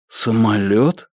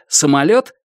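First: Slow, blank repeated question; dull echo. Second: Said in the usual way. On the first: A narrator's reading. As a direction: echo it stupidly, very slowly. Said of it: "тупо переспросил он".

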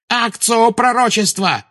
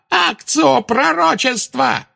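First: High commanding cry of "Акцио"; shouted spell. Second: Even higher, slow, stretched "Акцио пророчества"; drawn-out shriek. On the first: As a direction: fling out "Акцио пророчества" as a command. Bellatrix casting summoning spell. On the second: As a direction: drag out "Акцио" in desperation. Repeated spell, more desperate. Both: Acted.

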